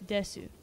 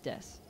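First: "desu" with the final U voiced; full U pronunciation. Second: "des" with the final U dropped; silent final U. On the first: Explaining the usual Japanese reading, "desu" with U sounded. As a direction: say "desu" as two syllables, ending on U. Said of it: "that would be pronounced desu". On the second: Explaining this specific context, "des" with U silent. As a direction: end "des" on the S, no vowel after. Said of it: "the U on the end isn't pronounced". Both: Shown as a demonstration.

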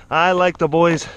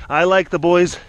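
The two takes are said the same way.

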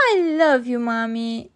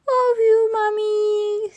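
First: Louder start, falling away; lightly voiced loving little girl; affectionate Peppa. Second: Put-on high, loud toddler voice; George. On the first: Peppa tells Mommy her love. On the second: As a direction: coo it like a baby brother, drawn out. Toddler George echoes Peppa's words. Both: A narrator's reading.

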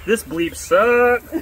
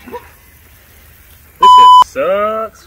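First: "bleep" said aloud in place of the swear. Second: Stretched out, loud in real pain; pained loud groan. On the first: Shown as a demonstration. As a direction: speak the word "bleep" for the curse. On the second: Real, not acted. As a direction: drag it out in burning pain. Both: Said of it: "I'll have to bleep out the swear word".

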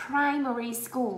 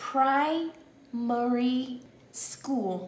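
First: Said in the usual way. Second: Primary school said very slowly, each syllable drawn out; very slow drill. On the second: Shown as a demonstration. Teacher modelling for the class, very slow and drawn out. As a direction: stretch every sound of Primary school. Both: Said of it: "Âm u kéo dài ra".

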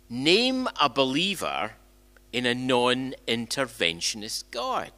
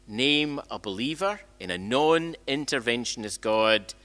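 Both takes have the same delivery.

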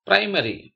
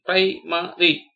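First: Said in the usual way. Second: "primary" slowly as pri, ma, ry; syllable by syllable. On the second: Shown as a demonstration. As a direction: break "primary" into three spaced syllables. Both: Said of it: "spell the word".

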